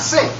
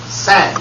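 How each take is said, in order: First: The word has the plain short 'i' vowel. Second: The word is drawn out with an 'a' vowel. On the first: She merely carries a tune. The speaker calls it wrong. "Not sing" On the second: She has real vocal talent. The speaker calls it right. "Sang is better than sing"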